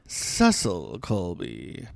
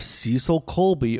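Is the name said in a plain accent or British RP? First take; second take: RP; plain. First: The name is said in a British RP accent. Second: The name is said in a plain everyday accent.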